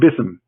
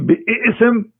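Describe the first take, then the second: First: The word is one short syllable. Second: The word has an extra vowel, two syllables. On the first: A letter has been taken off to fit the recitation. "Bism is easy" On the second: The word keeps the letter that was removed. "it is hard to recite the verse five times a day and say bi'ism"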